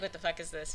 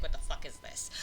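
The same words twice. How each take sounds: First: Said in the usual way. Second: Laughed through, breathy mock outrage; half-laugh "What the fuck is this?" in disbelief. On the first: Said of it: "I'm already like". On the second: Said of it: "I'd be like".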